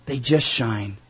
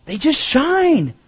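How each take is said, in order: First: Much lower and softer; quiet echo. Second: High, slow and drawn out; soaring emphasis. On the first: Preacher repeating the lighthouse line to his congregation, hushed and low. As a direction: drop it to a soft, low echo. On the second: Preacher to congregation, lifting the lighthouse line high and slow. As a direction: let the line rise and ring, slowly. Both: Acted.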